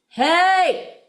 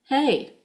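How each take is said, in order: First: The word is said very loudly. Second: The word is said somewhat more quietly. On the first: "really loud" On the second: "a little more quietly"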